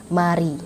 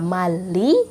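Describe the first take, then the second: First: The middle consonant sounds like an R. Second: The middle consonant sounds like an L. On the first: The speaker calls it right. "tapi mari" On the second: The speaker calls it wrong. "Bukannya mali"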